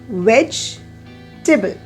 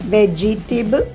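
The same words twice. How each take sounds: First: The word is said with three syllables. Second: The word is said with four syllables. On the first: The speaker calls it right. "it has got only three, veg-te-ble" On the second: The speaker calls it wrong. "it has got ve-ge-te-ble, four syllables"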